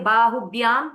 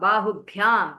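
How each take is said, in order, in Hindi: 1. bh अल्पप्राण बोला जाता है। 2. bh महाप्राण बोला जाता है। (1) "If you say Bahubhyam, that is wrong" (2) "that Bha has to be Mahaprana"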